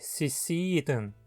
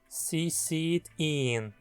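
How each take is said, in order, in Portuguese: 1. O pronome final é reduzido a uma sílaba fraca. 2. O pronome final é dito por inteiro e com acento. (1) "onde ihn é reduzido a an" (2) "Falado dessa forma, fica parecendo que ela o vê"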